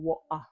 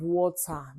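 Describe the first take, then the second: First: The T in the middle is silent, British-style. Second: The T in the middle is pronounced.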